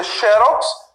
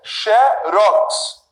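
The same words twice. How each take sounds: First: "xerox" stressed on the first syllable, XÉ-rox; paroxytone stress. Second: "xerox" slowly split, stressed on the last syllable, xe-RÓX; oxytone stress. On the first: Teacher giving the usual paroxytone xerox for contrast, first-syllable stress. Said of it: "Em vez de eu dizer xerox". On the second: Teacher showing the other pronunciation of xerox, last-syllable stress. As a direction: land hard on the final syllable of "xerox". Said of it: "com a sílaba mais forte, na última". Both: Shown as a demonstration.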